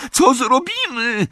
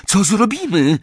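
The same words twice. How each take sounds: First: Very high, drawn-out shriek; panicked scream. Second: High, alarmed cry; panicked yell. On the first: Hermiona over the roar of fire, panicked scream. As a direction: wail it out slowly, far higher. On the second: Hermiona trapped by flames, panicked yell. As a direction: cry out over a roar. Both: A narrator's reading. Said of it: "wrzasnęła Hermiona".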